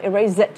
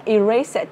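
First: "erase it" with a buzzing Z; voiced Z in "erase"; variant with Z. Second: "erase it" with a hissed S; unvoiced S in "erase"; variant with S. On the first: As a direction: say "erase it" as i-RAZE-it. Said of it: "tùy bạn chọn Anh hay Anh Mỹ". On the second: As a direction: say "erase it" as i-RACE-it. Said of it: "Các bạn đọc là". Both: Shown as a demonstration.

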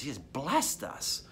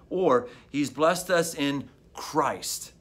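First: Blessed leaned on, slow and soft; stress on blessed. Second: Us lifted and stretched, very slow; stress on us. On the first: Pastor meditating on a verse, stress on blessed. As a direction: press on the word blessed. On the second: Pastor meditating on a verse, weight moved to us. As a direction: land hard on the word us. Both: Shown as a demonstration. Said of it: "but emphasize different words".

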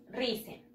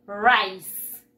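First: "rice" read in Spanish as two syllables, "ree-seh"; as spelt. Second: "rice" as one loud syllable, "rise" with an s; English pronunciation. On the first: Teacher showing pupils how it is written, "rice" as "ree-seh". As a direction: sound out "rice" by Spanish spelling, softly. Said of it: "se escribe así". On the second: Teacher showing pupils how it is pronounced, "rice" loudly as "ryce". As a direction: model "rice" firmly and clearly, falling in pitch. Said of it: "Y se pronuncia". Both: Shown as a demonstration.

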